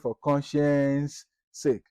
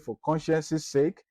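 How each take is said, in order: First: No extra syllable follows 'conscience' before 'sake'. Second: An extra syllable follows 'conscience' before 'sake'. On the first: The speaker calls it right. "just say" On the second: The speaker calls it wrong. "You don't need to say"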